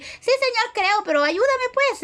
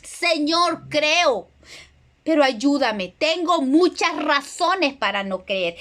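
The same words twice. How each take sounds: First: High, breezy "Sí, Señor" tossed off without weight; mock a careless, casual prayer; offhand plea. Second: A touch of earnest pleading, slowing at the end; mild retold cry to the Lord, heartfelt; tearful plea. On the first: Preacher mimics a believer praying lightly, breezy and offhand. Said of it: "no estamos hablando de un decir". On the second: Preacher retells the father crying out to Jesus, gently tearful. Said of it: "que con lágrimas clamó".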